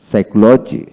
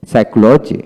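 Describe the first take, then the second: No difference in how they are said.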